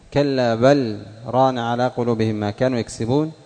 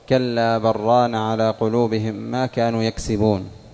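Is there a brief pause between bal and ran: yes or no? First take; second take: yes; no. First: A brief pause separates bal from ran. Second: Bal merges straight into ran without pause. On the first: This follows one reader's distinct recitation tradition. "هذه السكتة" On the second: This follows the majority of readers. "الجمهور يقرأون"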